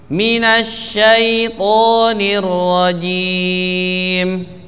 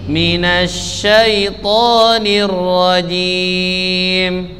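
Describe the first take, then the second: Both takes have the same delivery.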